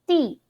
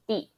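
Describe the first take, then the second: First: The syllable is said with a sharply falling tone. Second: The syllable is said short and light, toneless.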